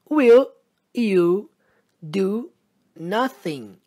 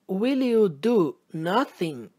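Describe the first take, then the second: First: The words are said separately, not joined. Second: The words are joined together smoothly.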